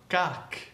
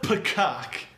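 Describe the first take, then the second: First: The P and K are soft, without a puff. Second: The P and K are released with a puff. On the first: The speaker calls it right. "The P is soft. The K is soft" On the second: The speaker calls it wrong. "It's not pkak"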